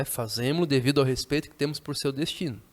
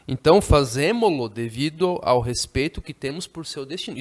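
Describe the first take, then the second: First: Said in the usual way. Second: Teacher reads the novel's line to the class; reading the text aloud. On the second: Shown as a demonstration. Teacher reads the passage aloud to students, a little louder. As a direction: read the book's sentence aloud, a touch louder. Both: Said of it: "tô tornando as frases aqui mais simples".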